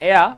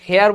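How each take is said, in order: First: The word starts with a vowel, no h. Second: The word starts with an audible h sound. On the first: The speaker calls it right. "শুদ্ধ উচ্চারণে এয়া" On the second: The speaker calls it wrong. "হেয়ার বলেন"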